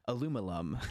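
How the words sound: It has four syllables, American style. This is how Americans say it. "to say how they say it in America"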